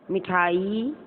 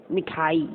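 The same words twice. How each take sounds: First: "मिठाई" with a rising ending; lifted last vowel on "मिठाई"; wrong version demonstrated. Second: Said in the usual way. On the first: Shown as a demonstration. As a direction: read "मिठाई" as a doubtful wrong form. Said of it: "मिठाई नहीं गया होता". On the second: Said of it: "शुद्ध".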